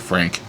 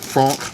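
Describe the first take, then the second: First: It is said with an American pronunciation. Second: It is said with a French pronunciation. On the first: "me being American, I like to say franc" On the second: "I'm pretty sure that's how you're supposed to pronounce it"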